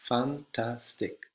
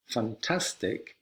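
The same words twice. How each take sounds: First: Fantastic said very slowly and softer, syllable by syllable; quiet, drawn-out Fantastic; syllables spelled out. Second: Fantastic said slowly, each syllable apart; slow teacher's fan-tas-tic; syllables spelled out. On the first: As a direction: stretch Fantastic out for learners. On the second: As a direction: break fantastic into its three beats. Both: Shown as a demonstration. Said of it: "it has kind of three sounds".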